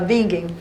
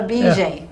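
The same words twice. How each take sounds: First: The name is said with a German pronunciation. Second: The name is said with a Brazilian pronunciation. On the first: This is how the original name is said. "Não fala Bingen" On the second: Local people say it this way. "tem gente que fala Bingen"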